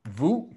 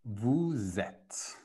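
First: "vous" said as vu, the s silent. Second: "Vous êtes" as vu-zet, the s linked as a z; teacher models the z liaison in "Vous êtes"; liaison demo. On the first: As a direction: drop the s: "vous" is just vu. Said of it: "So you get no S". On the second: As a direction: join the s of "vous" onto "êtes" as z. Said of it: "Then the S connects to the next one". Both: Shown as a demonstration.

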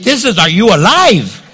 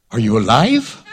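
First: "Are you alive?" pushed louder and higher; emphatic retort. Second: Laughing question. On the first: Wife to old husband, a teasing emphatic "alive". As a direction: lean hard on "alive", falling at the end. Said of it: "This isn't, 'Do you have a headache?'". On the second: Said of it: "Sarah's like". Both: Retold or imitated.

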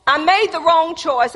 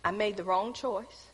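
First: Loud, high, preached admission; emphatic confession. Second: Softer, lower admission; quiet confession. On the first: Preacher warning the congregation, louder and higher. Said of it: "this is how God does things". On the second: Preacher confessing to the congregation, soft and low. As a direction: let the regret sink in softly. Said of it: "What am I saying to you?". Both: Shown as a demonstration.

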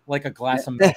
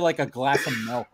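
First: Said in the usual way. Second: Cookie Monster voice. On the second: Retold or imitated. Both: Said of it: "busted out the Cookie Monster impression".

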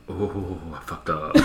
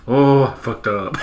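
First: Much softer, slow, dismayed; quietly realizing he's in trouble; hushed dread. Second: Slow, laughing through it; cracking up retelling the line; laughing repeat. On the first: Caught gamer hearing his wife wake, hushed and slow. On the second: Retelling the caught gamer's line, laughing slowly. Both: Retold or imitated. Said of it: "he's like".

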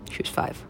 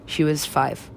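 First: Voiceless whisper. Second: Said in the usual way. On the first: Real, not acted. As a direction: breathe it out in disbelief. Repeated line, whispered take.

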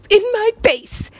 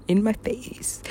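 First: High-pitched emphatic burst; excited exclamation. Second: Very soft, slow, almost whispered; hushed and drawn out; hushed recollection. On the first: Retelling bass drop, emphatic repeat. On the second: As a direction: drop to a near whisper. Retelling bass drop, first take. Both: Retold or imitated.

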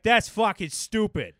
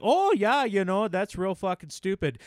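First: Higher Boston accent, more punch; Boston accent with full lungs. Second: Boston accent, higher pitched. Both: Shown as a demonstration. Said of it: "a lot more pertinent in a Boston accent".

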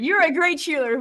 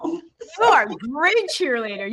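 First: Said in the usual way. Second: "are" stretched and leaned on, slowly; stress on ARE. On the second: Real, not acted. Host insisting to guest she is a great cheerleader, stressing "are".

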